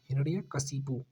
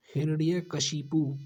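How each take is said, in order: First: Said in the usual way. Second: हिरण्यकशिपु spelled out slowly, each syllable separate. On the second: Shown as a demonstration. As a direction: sound out हिरण्यकशिपु slowly for the class. (हिरण्यकशिपु धीरे-धीरे, हर अक्षर अलग) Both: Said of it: "कशिपु वाला सही होता है".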